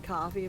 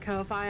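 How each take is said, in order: First: It is said like the drink, ending in 'fee'. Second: The second syllable rhymes with 'Wi-Fi', like 'fye'. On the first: "I know it's supposed to be coffee" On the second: "I like to call it Ko-fi"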